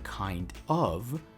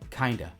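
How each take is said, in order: First: Both words are said separately and fully. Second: The words blend into one reduced word. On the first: "Instead of saying kind of" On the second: "we're pronouncing it as kinda"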